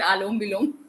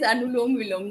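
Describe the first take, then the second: First: The first word has two syllables, aa-lom. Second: The first word has three syllables, a-nu-lom. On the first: The speaker calls it wrong. "Not आलोम विलोम" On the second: The speaker calls it right. "It is अनुलोम विलोम"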